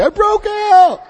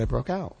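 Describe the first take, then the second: First: High, loud tough-guy boast like a Muggsy gangster. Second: Said in the usual way. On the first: Retold or imitated. Telling his mother he escaped jail, loud high gangster crow. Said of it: "Like a Muggsy". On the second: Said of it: "I said".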